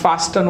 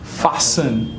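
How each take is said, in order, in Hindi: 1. बीच में T ध्वनि उच्चारित होती है। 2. बीच में T ध्वनि मौन है। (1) "not fasten" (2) "the T is silent"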